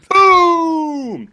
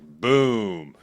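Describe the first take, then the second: First: It is said loudly with lots of energy. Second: It is said flatly, without energy.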